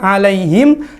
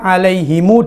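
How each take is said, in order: First: The word ends on a bare m sound. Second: The word ends with an added u vowel. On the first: "dibaca sukun" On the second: "dibaca alaihimu dengan silah"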